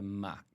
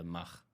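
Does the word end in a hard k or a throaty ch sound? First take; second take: hard k; throaty ch. First: The word ends in a hard k sound. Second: The word ends in a throaty ch sound. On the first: This is how it is said in English. "we would kind of uh, normalize it to Mac" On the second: This is how it is said in Dutch. "we don't do the Mach"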